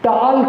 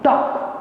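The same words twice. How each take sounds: First: The L sound is pronounced in the word. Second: The L sound is left out of the word. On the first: The speaker calls it wrong. "टॉक नहीं बोलते" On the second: The speaker calls it right. "एल silent होता है ना"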